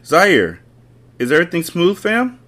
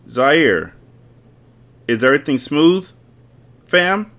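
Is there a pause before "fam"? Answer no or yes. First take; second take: no; yes. First: There is no pause before "fam". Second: There is a pause before "fam".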